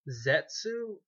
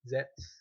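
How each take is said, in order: First: The name ends with an audible 'oo' vowel. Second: The name ends without any final vowel. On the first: "I don't know if it's pronounced Zetsu or Zets" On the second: "when they say it in Japanese, they don't say "oo,""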